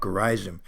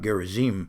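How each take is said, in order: First: Gerizim is said in an American pronunciation. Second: Gerizim is said in a non-American pronunciation.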